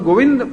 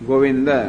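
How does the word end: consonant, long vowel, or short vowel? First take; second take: consonant; short vowel. First: The word ends on a bare d sound. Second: The word ends with a short a vowel. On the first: The speaker calls it wrong. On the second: The speaker calls it right.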